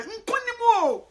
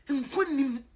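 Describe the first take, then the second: First: High, loud, slow proclamation; triumphant call; victory cry. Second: Said in the usual way. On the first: Real, not acted. Declares victory, repeated.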